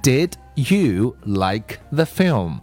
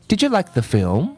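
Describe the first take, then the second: First: Each word is said separately and fully. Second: The d and y blend into a reduced didja. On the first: "它的完整版应该是" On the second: "因为有这个d 加y 读成g，然后you 读成y，所以我们会读成"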